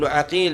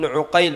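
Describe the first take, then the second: First: The first vowel of the name is a. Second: The first vowel of the name is u. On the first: "بفتح العين" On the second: "بضم العين"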